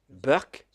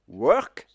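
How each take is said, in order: First: In an Indian English accent, it begins with a B. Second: It begins with a W sound.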